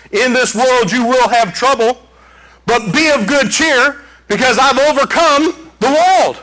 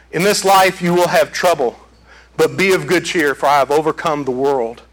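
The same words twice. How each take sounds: First: Proclaimed quote. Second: Said in the usual way. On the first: Shown as a demonstration. Preacher quoting Jesus to congregation, raised proclamation. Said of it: "That's a quote from Jesus Christ". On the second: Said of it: "That's a quote".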